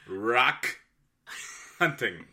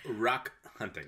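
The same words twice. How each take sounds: First: Each sound is articulated very carefully and distinctly. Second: The words are said casually, without careful articulation. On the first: "Can you really enunciate?" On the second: "Is that better?"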